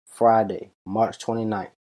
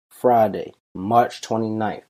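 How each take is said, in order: First: Said in the usual way. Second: Friday called out, March twenty-ninth slower; emphatic repeat. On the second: Shown as a demonstration. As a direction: hit Friday, then spell out March twenty-ninth slowly. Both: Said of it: "I'ma say it one more time".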